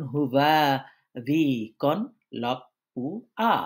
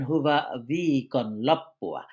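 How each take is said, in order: First: "হুবা ভি কন লপ্পুয়া" slowly, every sound separated. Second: Said in the usual way. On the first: Shown as a demonstration. Teacher showing learners each letter's sound, sound by sound in "হুবা ভি কন লপ্পুয়া". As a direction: spell out "হুবা ভি কন লপ্পুয়া" piece by piece, with pauses. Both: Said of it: "বলে বলে উচ্চারণ করা".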